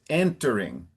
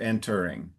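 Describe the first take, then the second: First: The stress is on the first syllable. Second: The stress is on the second syllable. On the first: The speaker calls it right. "It's entering" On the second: The speaker calls it wrong. "instead of entering"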